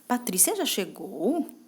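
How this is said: It sounds doubtful and questioning. The speaker is unsure whether it happened. "quando eu tô com uma dúvida"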